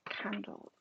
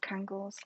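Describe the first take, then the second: First: The word is said with a clear d sound. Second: The word is said with a g sound.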